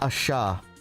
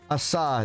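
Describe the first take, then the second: First: The middle consonant is an sh sound. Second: The middle consonant is a plain s sound. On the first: The speaker calls it wrong. "not asha" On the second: The speaker calls it right. "Asa, not asha, is what you're saying"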